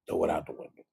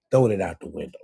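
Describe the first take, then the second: First: Whispered repeat, unvoiced. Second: Said in the usual way. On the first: Real, not acted. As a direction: breathe it out as a whisper.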